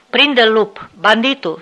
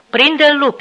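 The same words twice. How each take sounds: First: Sic the dog on him, loud; shouting at dog. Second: Much higher, louder angry yell at the dog; furious that the dog won't obey, yell it; angry repeated shout. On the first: Officer urging the wolfdog to attack, shouting command. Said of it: "strigă el spre câine". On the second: Officer angrily shouting the dog on again, angry yell. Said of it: "strigă el din nou, supărat". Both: Acted.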